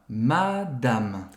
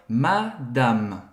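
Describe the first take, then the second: The two takes are said the same way.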